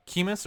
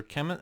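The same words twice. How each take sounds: First: Chemis said as KEE-mis; first vowel of Chemis as in "key"; long-e pronunciation. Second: Chemis said as KEM-iss; first vowel of Chemis as in "hem"; short-e pronunciation. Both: Shown as a demonstration. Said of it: "I don't know how you say it".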